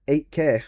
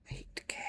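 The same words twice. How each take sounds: First: Said in the usual way. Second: Whispered in disbelief; stunned whisper. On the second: Real, not acted. Streamer whispering the mod price in disbelief. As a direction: breathe the price out, unvoiced and stunned.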